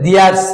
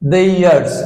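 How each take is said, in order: First: The first vowel sounds like 'ee'. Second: The first vowel sounds like 'ay'. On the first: The speaker calls it wrong. "আমরা কিন্তু দিয়ার্স বলি" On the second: The speaker calls it right. "আসলে দেইয়ার্স"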